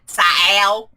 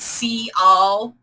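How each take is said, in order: First: The name is pronounced with American-style vowels. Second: The name is pronounced with Spanish-style vowels. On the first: "like an American would say it" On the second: "I tend to use uh, like Spanish when I'm pronouncing things"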